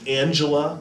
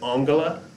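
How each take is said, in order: First: The G is a soft sound, as in gem. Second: The G is a hard sound, as in go. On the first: This is how it is said in English. "that soft G sound as in Angela, like we'd say in English" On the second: This is how it is said in German. "notice I said Angela because German is a different language"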